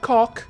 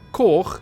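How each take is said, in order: First: It ends with a hard k sound. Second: It ends with a throaty ch sound. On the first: The speaker calls it wrong. "not cock" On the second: The speaker calls it right. "as ch, as in loch or koch"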